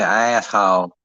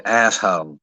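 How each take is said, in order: First: "asshole" drawn out with a split first vowel, "ah-ess-hole"; mimicked pronunciation. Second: "asshole" with the ending said as "hoe"; local pronunciation. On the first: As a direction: stretch "asshole" into a twangy "aye-ass-hole". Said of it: "why y'all gotta be saying". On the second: Shown as a demonstration. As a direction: drop the final L of "asshole". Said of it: "it's just hoe".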